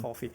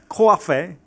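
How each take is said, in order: First: It is said in a standard American accent. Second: It is said in a New York accent.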